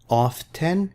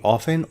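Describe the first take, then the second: First: The t sound is pronounced. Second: The t sound is silent.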